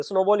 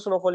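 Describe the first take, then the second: First: स्नोबॉल with a clear b sound, snow-ball; correct word. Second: स्नोफॉल with an f sound, snow-fall; wrong word. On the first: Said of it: "sorry, इसको स्नोबॉल बोलेंगे". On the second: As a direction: say स्नोफॉल as snow plus fall, the mistaken form. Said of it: "स्नोफॉल में गलती से बोल रहा हूँ". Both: Shown as a demonstration.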